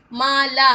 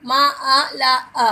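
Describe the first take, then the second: First: Said in the usual way. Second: माला broken into मा आ ला अ, each vowel slow and separate; sounded out syllable by syllable. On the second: Shown as a demonstration. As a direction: spell माला out by its sounds, slowly. (माला को धीरे-धीरे मा आ ला अ करके तोड़कर बोलना) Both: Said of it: "यानी बड़े आ की मात्रा लगी हुई है".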